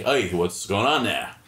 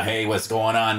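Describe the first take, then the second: First: Slower, lighter Boston greeting; a bartender softening his Boston accent for a stranger; toned-down Boston accent. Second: Heavy Boston bar greeting, a little louder; a bartender's thick Boston hello; full Boston accent. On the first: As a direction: ease the Boston accent back a notch. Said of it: "you lower it down just a bit". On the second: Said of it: "if you're normally talking like this behind the bar". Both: Shown as a demonstration.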